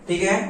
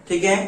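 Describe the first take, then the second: Both takes have the same delivery.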